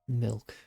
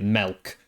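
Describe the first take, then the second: First: The vowel sounds like an I, as milk. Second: The vowel sounds like an E, as melk. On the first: "with a proper I" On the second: "he pronounces it milk"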